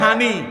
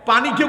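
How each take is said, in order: First: It starts with an h sound, Feni dialect. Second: It starts with a p sound, standard Bengali.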